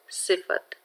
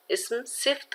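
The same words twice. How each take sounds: First: सिफत said in three clear parts, si-fa-t, with a short a after the f; correct pronunciation. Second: सिफ्त said with the f run straight into the t, no vowel between; clipped wrong form सिफ्त, as some children say it; wrong pronunciation. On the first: Teacher giving students the correct सिफत, every sound spelled out. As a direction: give सिफत its full middle vowel, सि-फ-त. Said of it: "दुरुस्त तलफ़ुज़ है सिफत". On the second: Teacher showing students the mistaken सिफ्त, squeezed into two beats. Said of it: "जो कि दुरुस्त नहीं है". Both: Shown as a demonstration.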